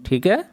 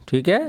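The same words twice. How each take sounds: Both takes have the same delivery.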